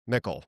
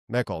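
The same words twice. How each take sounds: First: The name is said with a German sound. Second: The same.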